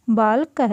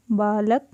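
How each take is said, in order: First: बालक said loud and crisp, short vowels; बालक spoken loud, syllable by syllable for the class; clear teaching pronunciation. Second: Said in the usual way. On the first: Shown as a demonstration. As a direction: call out बालक like a teacher drilling. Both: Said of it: "इनका हमें उच्चारण करना है".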